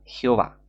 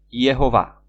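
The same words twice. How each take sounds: First: Said in the usual way. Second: Jehová read as "Yejová", with a Y glide; pronunciación con Y inicial. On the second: Shown as a demonstration. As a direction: start Jehová with a Y sound, then a j. (Jehová con sonido de Y al inicio) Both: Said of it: "o sea, Jehová".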